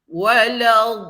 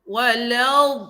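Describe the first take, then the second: The two takes are said the same way.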